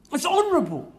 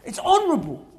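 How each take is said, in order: Both takes have the same delivery.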